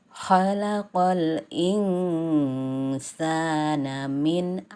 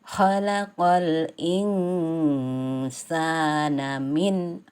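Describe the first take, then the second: No difference in how they are said.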